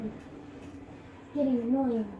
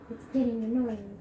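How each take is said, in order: First: Slow, dragged-out annoyed complaint; slow annoyed drawl. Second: Said in the usual way. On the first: Real, not acted. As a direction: stretch each word out in irritation.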